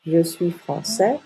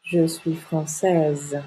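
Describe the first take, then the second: First: Français ending on a rising è; slowly, français with no S sounded; silent final S. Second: Française drawn out to a final z; very slowly, voice the z closing française; sounded final consonant. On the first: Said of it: "Le S est une lettre muette". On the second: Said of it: "on prononce la dernière consonne". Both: Shown as a demonstration.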